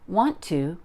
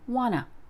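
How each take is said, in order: First: Both words are said fully and separately. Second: The words run together into one reduced form.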